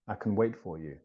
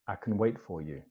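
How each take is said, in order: First: The word 'can' is reduced and weak. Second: The same.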